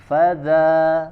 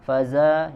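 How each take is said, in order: First: The middle consonant is a soft voiced 'th'. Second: The middle consonant is a buzzing 'z' sound. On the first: The speaker calls it right. "ujung lidah sentuhkan ke ujung gigi seri atas" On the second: The speaker calls it wrong. "jadi bukan fazalika, faza"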